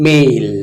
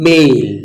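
The two takes are said the same way.

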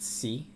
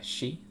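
First: The syllable starts with a plain s sound. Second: The syllable starts with an sh sound. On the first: The speaker calls it wrong. "It wasn't si" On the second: The speaker calls it right. "it was she"

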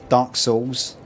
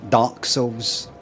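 First: The stress falls on the word Souls. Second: The stress falls on the word Dark. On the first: "You've got Dark this, Dark that, Dark Souls" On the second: "I don't say Dark Souls"

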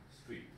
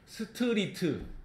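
First: The word is said as one short syllable. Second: The word is said as four separate syllables. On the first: The speaker calls it right. "위에 거는 한 글자처럼 읽어야 돼. 음절이 하나니까" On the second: The speaker calls it wrong. "밑에 거는 네 글자니까 사음절처럼 읽어야 돼"

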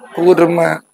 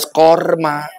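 First: The first vowel is an 'u' sound. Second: The first vowel is an 'o' sound. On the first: The speaker calls it right. "Yang betul mah kurma" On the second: The speaker calls it wrong. "Sanes korma"

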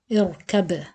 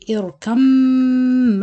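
First: The final b is released with a bounce. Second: The final b merges into a nasal m. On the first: The reciter stops after this word. "you pronounce the ba with qalqala" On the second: The word flows on into the next word. "You merge the ba completely into the meem with gunna"

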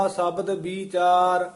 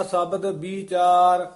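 The two takes are said the same way.

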